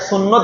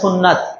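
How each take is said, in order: First: The second syllable has a short 'o' vowel. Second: The second syllable has a long 'a' vowel. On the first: The speaker calls it wrong. "সেটাকে সুন্নত বলতে হয় না" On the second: The speaker calls it right. "সেটাকে বলতে হয় সুন্নাত"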